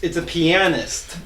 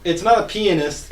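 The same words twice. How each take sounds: First: "pianist" drawn out slowly as pee-AN-ist; A sounded fully. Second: "pianist" said as PEE-uh-nist; A swallowed. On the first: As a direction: correct it slowly, leaning on the AN in "pianist". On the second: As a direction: squash the A in "pianist" to a weak uh, stress up front. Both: Shown as a demonstration.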